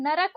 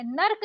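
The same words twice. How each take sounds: First: नरक said "na-rak"; two clear syllables in नरक; correct pronunciation. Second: नर्क said "nark" in one syllable; wrong pronunciation. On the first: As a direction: say नरक with a vowel before k. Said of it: "नर्क नहीं होता है". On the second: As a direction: run r and k together in नर्क. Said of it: "नरक होता है". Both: Shown as a demonstration.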